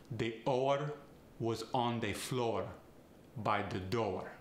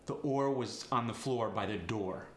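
First: Extra vowel slipped into oar, said like oh-uh; Farsi accent. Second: Said in the usual way. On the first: Shown as a demonstration. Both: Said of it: "Add an extra vowel".

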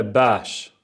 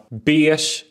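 First: "beige" with an open Ä vowel; variant pronunciation. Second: "Beige" with a closed E vowel; variant pronunciation. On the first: Host offers rival pronunciations, "beige" with open Ä. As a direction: say "beige" as bäsh, slowly. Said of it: "Tröjan är beige". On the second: Host offers rival pronunciations, "Beige" with long E. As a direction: say "Beige" as beesh with Swedish long E, slowly. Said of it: "Beige eller beige?". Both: Shown as a demonstration.

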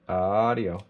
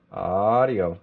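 The two takes are said the same way.

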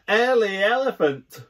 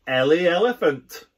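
First: High, loud teasing shout. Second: Squealing. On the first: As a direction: shout it across the street. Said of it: "we all shout". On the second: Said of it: "Jody squeals". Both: Acted.

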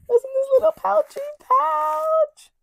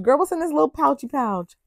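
First: Very high, cutesy squeak; squeaky high voice. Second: Said in the usual way. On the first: Pretend. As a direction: squeak it like a cartoon. Repeated in squeaky voice.

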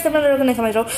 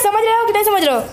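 First: Said in the usual way. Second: Pitched up high, mock teasing; playful high-pitched taunt; teasing singsong. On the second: Real, not acted. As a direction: tease the viewers in a high voice. Teasing viewers, repeated question.

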